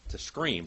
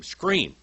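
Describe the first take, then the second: First: Said in the usual way. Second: Screamed word. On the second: Shown as a demonstration. Preacher showing congregation the word scream, high loud cry. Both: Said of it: "That onomatopoeic word".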